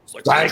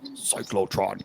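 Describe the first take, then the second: First: It is said in a normal speaking voice. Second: It is said in a deep Transformers robot voice.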